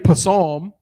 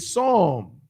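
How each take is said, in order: First: The p at the start is pronounced. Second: The p at the start is silent. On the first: The speaker calls it wrong. "You don't say psalm" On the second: The speaker calls it right. "You say psalm"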